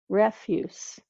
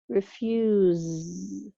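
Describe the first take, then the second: First: The word ends with a hissing S sound. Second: The word ends with a buzzing Z sound. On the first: "ends with an S" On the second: "the sound at the end is almost like a Z"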